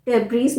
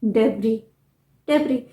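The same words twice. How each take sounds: First: डेब्रीज with a final S sound; wrong pronunciation. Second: डेब्री said as "deb-ree"; silent final S. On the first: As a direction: say डेब्रीज as "deb-rees". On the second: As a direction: end डेब्री on the vowel. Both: Shown as a demonstration. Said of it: "डेब्रीज नहीं होता है".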